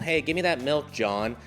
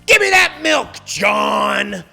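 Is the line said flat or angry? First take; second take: flat; angry. First: It is said flat, without emotion. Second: It is said angrily, with lively melody.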